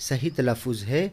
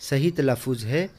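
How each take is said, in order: No difference in how they are said.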